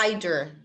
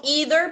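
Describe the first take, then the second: First: Either said EYE-ther, British style; British pronunciation. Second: Either said EE-ther, American style; American pronunciation. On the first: Teacher to class, demoing either the British way: EYE-ther. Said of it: "no inglês britânico é either". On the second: Teacher to class, demoing either the American way: EE-ther. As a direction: say either with the long ee sound, EE-ther. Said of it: "porque eu falo inglês americano". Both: Shown as a demonstration.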